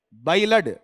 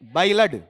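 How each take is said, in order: The two takes are said the same way.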